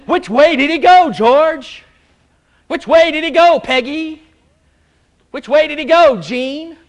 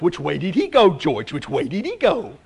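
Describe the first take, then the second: First: Higher and louder, quizzing each listener by name; preacher calls on members one by one, loud and high; calling out to congregation. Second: Lightly voiced cartoon dog, asking eagerly; a hint of a dim dog hunting for the rabbit; dog asks Bugs Bunny which way the rabbit went, lightly voiced. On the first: Real, not acted. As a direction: challenge the room with the question, loud and high. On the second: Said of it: "the dog comes up and says".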